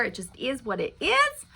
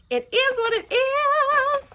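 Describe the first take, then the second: First: Said in the usual way. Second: Much higher, slow and drawn out; a mock-resigned singsong; high sing-song repeat. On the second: Shown as a demonstration. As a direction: lilt it up high like a resigned little tune.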